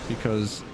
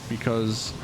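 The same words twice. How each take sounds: Both takes have the same delivery.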